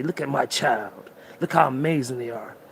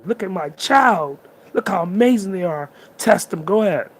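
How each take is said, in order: First: Put-on the universe gently showing off its child; universe speaking. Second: Universe bragging. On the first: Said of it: "The universe is trying to say". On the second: Retold or imitated. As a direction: show the child off to everyone. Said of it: "The universe is bragging about you".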